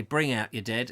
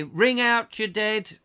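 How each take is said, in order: First: Said in the usual way. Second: High, slow street cry, ringing out; sing-song washerwoman cry, high and drawn out; washerwoman's call. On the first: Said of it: "people would come out and say". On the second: Retold or imitated. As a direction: call it out like an old washerwoman doing her rounds. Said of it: "she would say".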